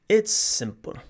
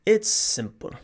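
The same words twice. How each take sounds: First: It is said in an imitated Irish accent. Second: The same.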